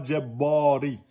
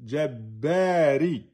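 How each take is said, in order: First: Jabbari with a thin, flattened a; wrong way: jabbari said thin, no emphasis. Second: Jabbari slow, with a full, open a; right way: Jabbari stretched and open; correct jabbari. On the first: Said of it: "c'est pas le jabbari". (jabbari prononcé aminci, sans emphase) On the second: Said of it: "c'est pas jabbari". (Jabbari prononcé lentement, voyelle pleine) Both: Shown as a demonstration.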